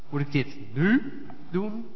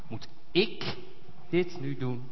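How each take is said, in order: First: The stress falls on the word nu. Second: The stress falls on the word ik.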